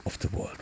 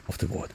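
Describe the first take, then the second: No difference in how they are said.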